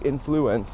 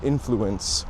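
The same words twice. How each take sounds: First: It is said to sound like influenza. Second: It is said the ordinary way, unlike influenza. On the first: The speaker calls it wrong. "people say influence, like influenza" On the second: The speaker calls it right. "instead of influence"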